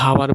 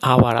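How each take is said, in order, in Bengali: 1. এটি 'h' ধ্বনি দিয়ে শুরু হয়। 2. এটি একটি স্বরধ্বনি দিয়ে শুরু হয়। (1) "আমরা কিন্তু হাওয়ার বলি না" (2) "অ্যান আওয়ার"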